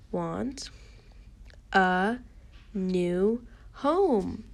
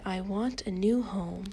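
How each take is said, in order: First: Slow, with a pause between words; word-by-word reading. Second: Said in the usual way. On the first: Shown as a demonstration. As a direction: read it one word at a time for beginners. Teacher models word-by-word reading.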